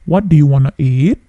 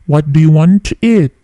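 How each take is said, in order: First: The words 'want to' are reduced to 'wanna'. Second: The words 'want to' are said in full.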